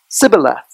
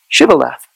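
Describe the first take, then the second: First: The word begins with an s sound. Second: The word begins with a sh sound. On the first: The speaker is an outsider to the group. The speaker calls it wrong. "not Sibboleth" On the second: The speaker belongs to the group. The speaker calls it right. "You had to say Shibboleth"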